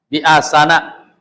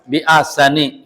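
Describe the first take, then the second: First: The word ends in an a vowel. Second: The word ends in an i vowel. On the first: The speaker calls it right. "Bacanya na na" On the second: The speaker calls it wrong. "tidak dibaca bi asani gitu"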